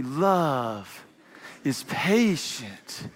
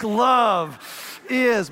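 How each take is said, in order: First: Very slow, lower, ornate "Love ... is patient" with a long pause; lingering, precious calligraphy reading. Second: Carve the words like scribbling angrily; tough, determined "Love is"; scratched into a desk. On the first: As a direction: paint each word like swooping script. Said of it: "we write it in calligraphy". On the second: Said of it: "scratch it in a desk". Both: Shown as a demonstration.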